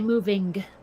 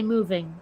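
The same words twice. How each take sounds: First: The final G sound is strong and prominent. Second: The final G sound is soft, barely heard. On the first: This is not how it is normally said. "We don't say moving" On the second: This is the usual everyday way. "usually we just say moving"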